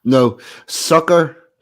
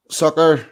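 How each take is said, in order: First: Drawn out, slow "No, sucker"; slow spelled-out sucker. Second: Said in the usual way. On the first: Shown as a demonstration. Explaining simp to a friend, slow and deliberate. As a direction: spell out "sucker" slowly, word by word.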